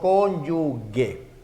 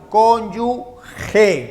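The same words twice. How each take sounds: First: The last syllable starts with a hard g sound. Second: The last syllable starts with a raspy h sound. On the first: The speaker calls it wrong. "no cónyuge" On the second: The speaker calls it right. "esto también se lee a cónyuge"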